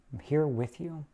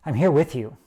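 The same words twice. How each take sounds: First: Softer, gentle repeat of "I'm here with you". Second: Said in the usual way. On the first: Retold or imitated. Comforting a hurting friend, saying "I'm here with you" softly. Empathy voiced to a sufferer.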